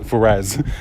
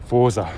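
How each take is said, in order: First: An extra vowel separates the r and z. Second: The r runs straight into the z. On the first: The speaker calls it wrong. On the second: The speaker calls it right.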